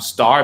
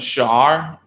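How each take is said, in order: First: The word begins with a clear S sound. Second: The word begins with an SH sound. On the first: The speaker calls it right. "the S becomes a T or like it becomes like a S H" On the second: The speaker calls it wrong. "star becomes shar"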